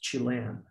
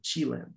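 First: The stress falls on a later syllable. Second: The stress falls on the first syllable. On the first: The speaker calls it right. "the right way to say it is Chilean in English" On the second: The speaker calls it wrong. "with an accent in the first part of the word"

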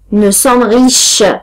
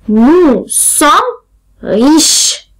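First: It is said at a faster pace. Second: It is said at a slower pace.

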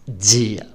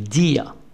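First: It is said with a Brazilian Portuguese accent. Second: It is said with a European Portuguese accent. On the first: "Mais pour le brésilien, disent dia" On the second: "Vous connaissez le jour en portugais, c'est dia"

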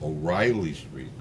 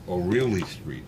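First: The name is said with English pronunciation. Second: The name is said with Spanish pronunciation. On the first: "but it's really" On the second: "in Spanish they pronounce it"

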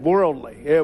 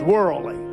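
First: The D sound in the word is pronounced. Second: The D sound in the word is dropped. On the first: "put the D on the end of worldly" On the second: "we didn't even put the D on the end"

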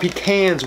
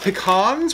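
First: The second syllable has the 'a' vowel of 'cans'. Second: The second syllable has an open 'ah' vowel. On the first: "pecans with an ands" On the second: "pecans with an ah"

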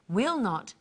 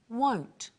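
First: Two separate words are said, will and not. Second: One short word is said, with a changed vowel.

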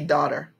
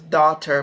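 First: Only the first syllable is stressed, flowing smoothly. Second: Both syllables are stressed equally and said separately. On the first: The speaker calls it right. "We say daughter" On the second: The speaker calls it wrong. "I stressed, you know, the syllables daughter, but we don't say it like that"

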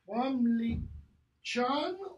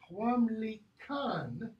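First: The consonant before the last syllable is ch. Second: The consonant before the last syllable is k. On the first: The sound follows the vowel that comes before it. "if you pronounce that as ch" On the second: The sound follows the vowel that comes after it. "or as k"

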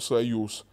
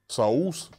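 First: The y-sound is kept in the word. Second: The y-sound is dropped from the word. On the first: The speaker calls it right. "вместо слова «союз»" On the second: The speaker calls it wrong. "проблема с пропуском гласных и звука и"

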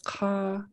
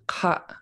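First: The vowel is long and stays high. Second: The vowel is cut off with a glottal stop. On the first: This is the Northern dialect form. "it's a long high A" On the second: This is the Tongass dialect form. "So you glottalize the end of it"

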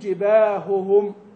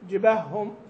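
First: The two h sounds are said clearly and separately. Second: The two h sounds merge into one doubled sound. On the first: The speaker calls it right. "تبين الهاء من الهاء" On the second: The speaker calls it wrong. "في اللهجة العامية تأتي زي كده"

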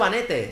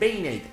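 First: The name is read just as it is spelled. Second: The name is said with English-style vowels. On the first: The speaker calls it wrong. "no se dice Vanete" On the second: The speaker calls it right. "se dice Vainate"

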